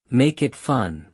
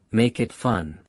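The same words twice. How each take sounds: The two takes are said the same way.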